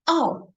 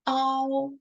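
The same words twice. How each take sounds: First: The pitch falls sharply from high to low. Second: The pitch stays high and level. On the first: "the fourth tone that will sound ow" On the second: "I start with the first"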